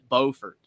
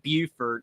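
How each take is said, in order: First: It is said the North Carolina way. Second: It is said the South Carolina way. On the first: "North Carolina pronounces it Beaufort" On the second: "South Carolina pronounces it Beaufort"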